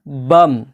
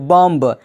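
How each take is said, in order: First: The final b sound is silent. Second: The final b sound is pronounced. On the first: The speaker calls it right. "लेकिन बी silent है" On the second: The speaker calls it wrong. "पढ़ा जाना चाहिए बॉम्ब"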